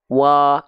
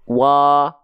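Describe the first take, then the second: Both takes have the same delivery.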